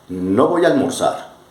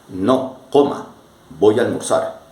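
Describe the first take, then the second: First: It is said without a pause after no. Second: There is a short pause after no.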